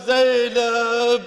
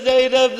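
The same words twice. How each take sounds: First: Long, mournful call of a name; drawn-out call. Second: Said in the usual way. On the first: Retold or imitated. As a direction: call out the name, stretching it slowly. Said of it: "he just says one time". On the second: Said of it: "When he says".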